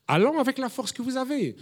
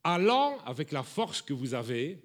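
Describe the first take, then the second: First: "Allant" hit higher, the whole line proclaimed; preacher driving the key phrase home; emphatic repeat. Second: Said in the usual way. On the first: Shown as a demonstration. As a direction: lift "Allant avec la force que vous avez" up high, preaching it. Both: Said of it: "repeated with emphasis".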